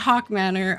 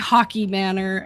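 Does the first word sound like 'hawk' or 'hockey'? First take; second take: hawk; hockey. First: The first word sounds like 'hawk', one syllable. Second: The first word sounds like 'hockey', two syllables. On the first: "you said Hawk Manor" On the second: "I say Hockey Manor"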